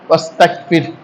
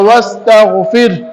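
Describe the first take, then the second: First: The gh sound is said like a k. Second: The gh sound is said as a throaty gh. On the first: The speaker calls it wrong. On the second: The speaker calls it right.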